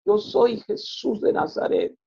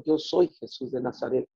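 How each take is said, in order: First: Much higher, breathy and slow Yo soy Jesús; a slow, hushed, high proclamation of Yo soy Jesús de Nazaret; voice of Jesus. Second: Said in the usual way. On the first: Retold or imitated. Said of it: "y me dijo estas palabras". (voz de Jesús, alta, lenta y susurrada) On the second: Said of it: "me dijo".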